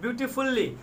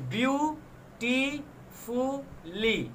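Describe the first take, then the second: First: Said in the usual way. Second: "beautifully" pulled apart slowly into four beats; syllable by syllable. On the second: Shown as a demonstration. Teacher showing four syllables to the class, "beautifully" split slowly. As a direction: pause after each syllable of "beautifully", stretching each one. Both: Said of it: "four syllables".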